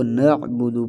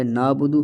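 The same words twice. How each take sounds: First: "نعبدو" with ain sounded in the throat; clear ain. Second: "نابدو" with an alif where ain belongs. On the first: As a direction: close the first syllable of "نعبدو" on ain. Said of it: "اس کو نعبدو پڑھنا ہے". ("نعبدو" عین ظاہر کر کے) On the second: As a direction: stretch "نابدو" as naa-budu. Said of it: "یہ الف یہاں پر آ رہا ہے". ("نابدو" الف کے ساتھ) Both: Shown as a demonstration.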